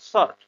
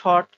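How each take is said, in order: First: The word begins with an 's' sound. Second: The word begins with an 'sh' sound. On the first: The speaker calls it right. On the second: The speaker calls it wrong. "এটা আসলে শর্ট বা এই টাইপের কিছু না"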